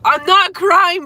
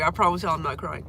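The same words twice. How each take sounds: First: Much higher, louder and slow, voice close to cracking; teary protest. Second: Said in the usual way. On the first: Real, not acted. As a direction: insist you're fine while your eyes water.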